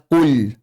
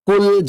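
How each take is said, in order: First: "kul" with a thick, dark l; wrong kul. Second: "Kul" with a thin, light l; correct kul. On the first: Teacher showing what to avoid, thick-l "kul". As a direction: say "kul" with a heavy, held l. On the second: Teacher modelling the right reading, thin-l "Kul". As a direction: say "Kul" with a clean, unthickened l. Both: Shown as a demonstration. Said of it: "jangan dibaca kul".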